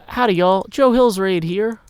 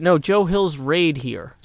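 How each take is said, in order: First: Cowboy greeting. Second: Said in the usual way. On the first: Shown as a demonstration. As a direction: announce the raid like a cheerful cowboy. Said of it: "you say". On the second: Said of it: "That's how I'm bad at things".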